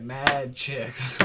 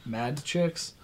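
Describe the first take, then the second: First: "mad chicks" with "mad" punched, meaning angry. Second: "mad chicks" drawn out slowly, "mad" meaning very many; mad meaning a lot. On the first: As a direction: hit "mad" as in angry girls. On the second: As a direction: say "mad chicks" slow and easy, like lots of girls. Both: Shown as a demonstration. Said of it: "It depends on how you wanna say that one".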